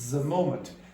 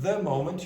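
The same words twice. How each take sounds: First: The first word begins with a buzzing z sound. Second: The first word begins with a soft th sound. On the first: The speaker calls it wrong. "you got the moment" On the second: The speaker calls it right. "Instead of the moment"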